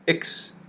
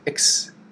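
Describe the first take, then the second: First: The syllable is short, quick and unstressed. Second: The syllable is short, quick and unstressed.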